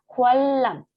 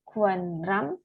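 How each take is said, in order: First: The middle consonants sound like a double L. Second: The middle consonants sound like N then R. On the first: The speaker calls it right. "Jadi bacanya adalah kualam" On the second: The speaker calls it wrong. "bukan kuanram"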